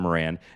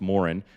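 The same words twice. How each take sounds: First: The name is pronounced a non-Irish way. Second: The name is pronounced the Irish way. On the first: The speaker calls it wrong. "instead of Moran" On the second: The speaker calls it right. "It's Moran"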